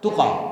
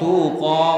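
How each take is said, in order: First: The vowel is kept short. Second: The vowel is drawn out long. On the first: The speaker calls it right. "yang pendek jangan dipanjangkan" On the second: The speaker calls it wrong. "Bukan tuqa, bukan"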